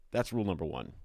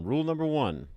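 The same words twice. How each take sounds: First: Said in the usual way. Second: "Rule number one" said high and loud like a proclamation; announced rule. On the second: Acted.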